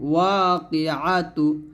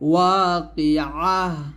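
First: The word ends with a full 'tu' syllable. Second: The word ends with a soft 'h' sound. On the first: The recitation continues without stopping. "তা পেশতু" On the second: The recitation stops at this word. "যদি আমরা এখানে ওয়াকফ ধরি তাহলে এই তাটা হা সাকিন হয়ে যাবে"

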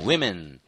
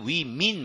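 First: The first vowel is a short 'i' sound. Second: The first vowel is a long 'ee' sound. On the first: The speaker calls it right. "그러지 말고 women" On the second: The speaker calls it wrong. "we mean 막 이런 사람도 있고 그래"

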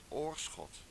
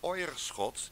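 First: The first vowel sounds like 'oh'. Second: The first vowel sounds like 'oy'. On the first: The speaker calls it right. "die heet Oorschot" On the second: The speaker calls it wrong. "Die stad in Brabant heet niet Oierschot"

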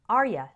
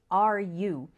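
First: The word 'you' is reduced to a short 'ya'. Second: The word 'you' is said fully and clearly. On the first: "It sounds more like "are ya."" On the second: "we don't say "are you.""

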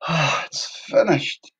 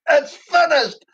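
First: It is said in a weary, defeated tone. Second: It is said in a strong, triumphant tone.

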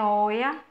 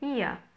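First: The name starts with an oh vowel, three syllables. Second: The name starts with an ee vowel, two syllables. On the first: The speaker calls it wrong. "então não é Oia" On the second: The speaker calls it right. "é Ia"

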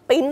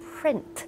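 First: The word ends without a final t sound. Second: The word ends with a clear final t sound. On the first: The speaker calls it wrong. "เราไม่มีตัวสะกดเพราะนั้นคำว่าปริ้นก็ปริ้นแหละ" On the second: The speaker calls it right. "ถ้าเป็นฝรั่งจริงสำคัญมากนะคะต้อง print ใส่ t ออกมาให้ด้วย"

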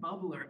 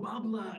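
First: The word ends with an R sound. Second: The word ends without an R sound.

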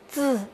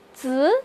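First: The pitch dips low, then rises. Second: The pitch rises from mid to high.

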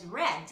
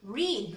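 First: It is pronounced as the past tense form. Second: It is pronounced as the present tense form. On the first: The reading already happened. "when you say read in past tense, you have to say it as read" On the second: The reading happens now or habitually. "read can be present tense"

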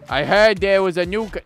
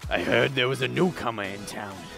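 First: It is said in his normal voice. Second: It is said in a put-on fisherman's voice.

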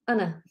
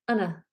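First: The word is reduced and the D is dropped. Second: The same.

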